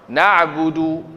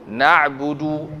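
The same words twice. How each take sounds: The two takes are said the same way.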